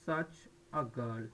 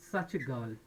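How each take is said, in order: First: Slow model phrase. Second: Said in the usual way. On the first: Shown as a demonstration. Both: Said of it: "যেমন আমরা বলি না".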